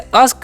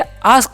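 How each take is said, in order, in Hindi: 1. पहला स्वर छोटा है। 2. पहला स्वर लंबा है। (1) "इसे अस्क पढ़ने का गलती नहीं करना है" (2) "ए का उच्चारण क्या कर देना है यहाँ पर आ कर देना है"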